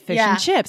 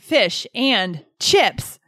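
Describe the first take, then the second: First: The word 'and' shrinks to just an n. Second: The word 'and' is said in full. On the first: "we say fish and chips" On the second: "Instead of saying fish and chips"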